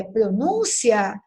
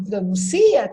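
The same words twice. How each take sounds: First: "pronúncia" slow, stressed on NÚN; correct form. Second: "pronuncia" stressed on CI, pro-nun-CI-a; contrasting wrong form. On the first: Teacher contrasting two words, slow stress on NÚN in "pronúncia". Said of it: "indicar a pronúncia correta". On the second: Teacher rejecting the unaccented form, stress on CI in "pronuncia". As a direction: hit CI hard in "pronuncia". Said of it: "e não pronuncia". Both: Shown as a demonstration.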